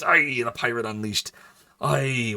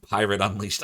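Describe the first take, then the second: First: Louder put-on pirate accent; mock pirate accent. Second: Said in the usual way. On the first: Streamer trying out an accent for chat, pirate accent. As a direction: lean into a hammy pirate accent. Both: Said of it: "what does that accent sound like".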